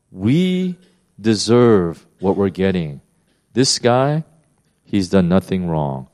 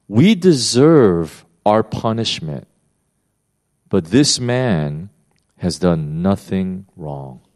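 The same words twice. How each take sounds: First: Said in the usual way. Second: Slow solemn reading. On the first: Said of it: "paraphrase after quote". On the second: Retold or imitated. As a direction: let each word land slowly and gravely. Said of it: "look what he says".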